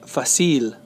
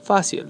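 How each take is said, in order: First: The stress is on the last syllable. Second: The stress is on the first syllable. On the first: The speaker calls it wrong. "they like to say fácil, pero no es así" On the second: The speaker calls it right. "The stress is over the, the A"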